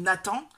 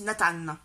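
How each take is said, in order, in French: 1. Le nom se prononce à la française. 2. Le nom se prononce à l'anglaise. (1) "qui s'appelle Nathan" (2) "les prénoms sont dits à l'anglaise"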